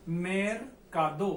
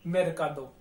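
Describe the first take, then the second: First: मेरकादो drawn out slowly, each syllable clear; slow pronunciation. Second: Said in the usual way. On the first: Shown as a demonstration. Teacher shows students a new Spanish word, slow and careful. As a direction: stretch मेरकादो slowly so every syllable is heard. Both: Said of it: "अगला शब्द है अपने पास मेरकादो".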